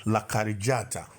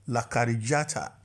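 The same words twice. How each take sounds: The two takes are said the same way.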